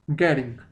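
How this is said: The middle t is a soft, flapped d-like sound. "En americano"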